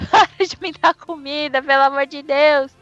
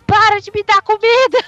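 First: A milder pleading yell. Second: High, loud desperate yell; frantic yelling. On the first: Thumb begs from inside the cow, milder and pleading. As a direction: beg rather than scream. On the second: Thumb inside the cow shrieks at the owner, high and loud. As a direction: shriek it out at full force. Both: Retold or imitated. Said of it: "tá a vaca gritando".

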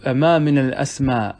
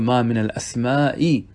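First: الأسماء said short, ending in a plain open a with no final hamza; shortened form. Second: الأسماء said in full, with the long final a and the hamza; original full form. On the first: Teacher reading the verse's shortened form of الأسماء, slowly. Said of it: "أسماء هذا بالقصر". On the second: Teacher giving the original full form of الأسماء, slowly. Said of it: "وكان الأصل أن يقول". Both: Shown as a demonstration.

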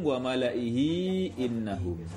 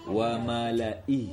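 First: Slow "wa malaihi innahum", drawing out "hi" into "innahum"; connected reading. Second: Slow "Wa malai", ending short on "i"; reading with a stop. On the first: Teacher showing students how to join, slow linked recitation. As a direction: link "malaihi" to "innahum" without stopping. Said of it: "kalau nyambung". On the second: Teacher showing students the stop, slow paused-ending recitation. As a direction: stop at "Wa malai", no long final vowel. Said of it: "Kalau berhenti gimana". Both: Shown as a demonstration.

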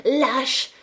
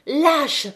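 First: High, choked cry of outrage; indignant cry. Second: Higher, louder repeat of the insult; louder indignant cry. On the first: Catherine screams at Étienne, choked with outrage. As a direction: spit the word out in indignation. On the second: Catherine screams again at Étienne, rising outrage. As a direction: fling it at him even harder. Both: Acted. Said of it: "lui cria sous le nez étranglé d'indignation".

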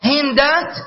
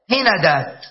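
First: هندات as hin-dāt, no vowel after the n; middle consonant unvowelled. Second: هندات as hi-na-dāt, short a after the n; middle vowel a. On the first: Teacher lists plural forms, هندات as hin-dāt. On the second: Teacher lists plural forms, هندات as hi-na-dāt. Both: Shown as a demonstration. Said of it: "هذا جمعها".

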